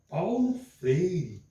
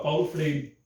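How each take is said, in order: First: The name is said with strong personal feeling. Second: The name is said in a plain, neutral way. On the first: The speaker personally feels and endorses it. "Eu interpretei o sentimento" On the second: The speaker simply presents it. "Estou apresentando Paulo Freire"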